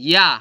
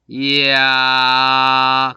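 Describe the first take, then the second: First: It is said quickly as one merged syllable. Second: It is drawn out, gliding slowly from i to a. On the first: "야 한 번에 발음하는 것 같지만" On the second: "맨 처음에는 이를 발음하는 모양으로 가요. 이걸 갖다가 아로 넘어가는 거죠"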